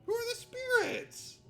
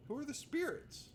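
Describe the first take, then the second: First: High, loud mock cry of confusion; mock exasperated shout. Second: Said in the usual way. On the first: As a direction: yell the question in fake despair. Repeats question louder, higher.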